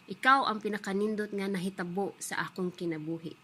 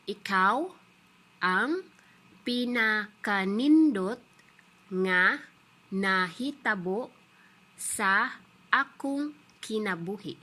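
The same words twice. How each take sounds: First: The sentence is spoken at normal speed. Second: The sentence is spoken slowly. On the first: "the normal pace is" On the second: "say it again in a slow uh, pace"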